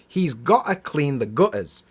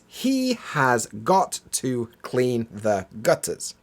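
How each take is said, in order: First: The words are squeezed together with reduced sounds. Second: Each word is pronounced separately and in full.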